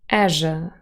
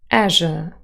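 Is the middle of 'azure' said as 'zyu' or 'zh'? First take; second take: zh; zh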